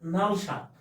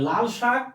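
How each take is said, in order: First: The first word begins with an N sound. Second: The first word begins with an L sound. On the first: "এটাকে আমরা বলি নাল" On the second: "যেমন লাল"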